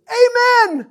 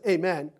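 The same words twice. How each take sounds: First: High, loud ringing Amen; hearty amen. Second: Said in the usual way. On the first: Acted. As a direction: shout the amen with joy. Enthusiastic amen. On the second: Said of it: "it just says".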